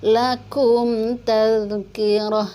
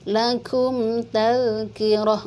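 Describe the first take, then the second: Both takes have the same delivery.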